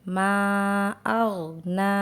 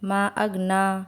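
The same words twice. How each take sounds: First: The long vowels are stretched and held out. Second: The long vowels are cut short and rushed. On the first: The speaker calls it right. "सही तरीका है" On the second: The speaker calls it wrong. "हम जल्दी में"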